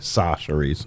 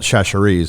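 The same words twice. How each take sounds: First: The name begins with a plain 's'. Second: The name does not begin with 's'. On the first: The speaker calls it right. "Now I'm told it's Sa, just S A" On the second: The speaker calls it wrong. "I used to call it Chachere's"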